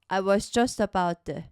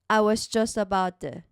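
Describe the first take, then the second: First: The t in 'to' is a soft flap. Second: The same.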